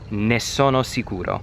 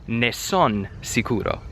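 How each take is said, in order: First: The word sono is said in full. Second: The word sono is cut to son.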